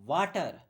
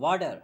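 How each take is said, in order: First: It is said in an Indian English accent. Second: It is said in a Canadian English accent. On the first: "हम तो कहते हैं वाटर" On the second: "जो Canadian है वो वाटर नहीं कहते, वो कहते हैं वाटर"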